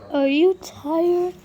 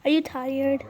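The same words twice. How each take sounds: First: Higher, louder and slow, drawn-out coo; baby talk. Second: Said in the usual way. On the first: Shown as a demonstration. Owner cooing at her sleepy puppy, higher and slow. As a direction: stretch it into a sing-song coo.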